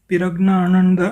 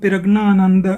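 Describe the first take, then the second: The two takes are said the same way.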